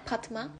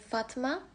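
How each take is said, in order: First: The name begins with a P sound. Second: The name begins with an F sound. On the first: "P olarak kullanın" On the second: "isminizde F varsa"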